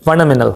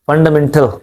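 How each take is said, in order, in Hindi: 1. बीच की 't' की आवाज़ छोड़ दी जाती है। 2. बीच की 't' की आवाज़ साफ़ बोली जाती है। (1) "अमेरिकन एक्सेंट में फंडामेंटल" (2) "ब्रिटिश को क्या बोलते हैं?"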